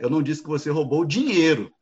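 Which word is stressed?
dinheiro. The stress is on "dinheiro".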